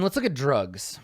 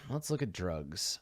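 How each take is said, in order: First: Said in the usual way. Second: Much softer under-the-breath repeat; muttering. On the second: Real, not acted. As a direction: drop it to a mumble. Repeats the line, second softer.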